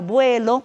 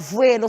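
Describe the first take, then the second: First: The word begins with a b sound. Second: The word begins with a v sound. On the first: The speaker calls it right. "será vuelo" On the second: The speaker calls it wrong. "nunca será vuelo"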